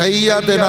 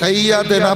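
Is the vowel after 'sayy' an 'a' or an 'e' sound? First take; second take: a; a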